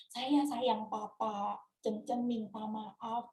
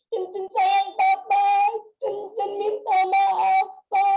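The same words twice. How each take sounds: First: Low, slow and soft; tender unspoken apology. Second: Slow, drawn-out call, raised voice; retold desperate cry. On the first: Retold or imitated. Daughter voicing words she never told papa, low and tender. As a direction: say it softly and slowly, as words never spoken. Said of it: "saya tuh belum pernah bilang". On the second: Daughter crying out to her dead papa, retold in a raised voice. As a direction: call it out slowly and loudly, stopping short of a scream. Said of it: "saya berteriak sekuat yang saya bisa".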